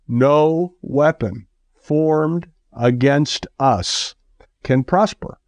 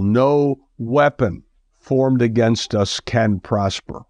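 First: "No weapon formed against us" drawn out slow, "can prosper" lifted high; slow, weighty proclamation with a high ending on "can prosper"; emphatic declaration. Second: Said in the usual way. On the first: Shown as a demonstration. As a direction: stretch every word of "No weapon formed against us", then rise hard on "can prosper".

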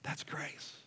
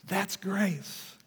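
First: Whispered softly, almost breathless; hushed whisper. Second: Said in the usual way. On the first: Real, not acted. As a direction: let the word grace fall into a whisper. Pastor stating grace, hushed.

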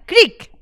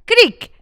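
First: Put-on loud, high creak like an old door; creaky door sound. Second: Loud, even higher creak; creaky door sound. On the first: Teaching children the call, loud high creak. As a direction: belt out a spooky creak. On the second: Children's call answered, loud high creak. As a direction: squeak it out like a door hinge. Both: Shown as a demonstration. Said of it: "When I say creak".

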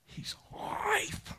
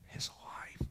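First: High, tearful whisper breaking into a cry. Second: Hushed breathy whisper, almost no voice. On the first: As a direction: let the voice crack with tears. Repeated, voice cracking into crying. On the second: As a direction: let it fall to a whisper. Preacher breaks into whisper. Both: Real, not acted.

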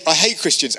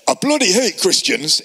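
First: Said in the usual way. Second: Shaky Scottish accent attempt, higher. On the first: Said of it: "that wasn't Scottish". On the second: Sales rep passing a church, attempted Scottish accent. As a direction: imitate a Scot badly, raising the pitch. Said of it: "it's a Scottish accent".

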